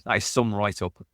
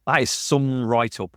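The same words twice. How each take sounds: First: Said in the usual way. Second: "That is some write-up" said slowly, leaning on "That"; slow emphatic stress. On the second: Real, not acted. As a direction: stretch out "That is some write-up" with weight on "That".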